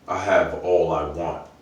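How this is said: It sounds firm and decided.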